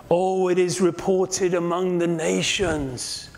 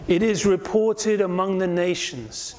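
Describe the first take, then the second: First: Slow, weighty, "reported" drawn out and stressed; emphasis on reported. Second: Said in the usual way. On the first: Shown as a demonstration. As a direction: linger on "reported" like a sly rumour. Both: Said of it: "Notice this phrase".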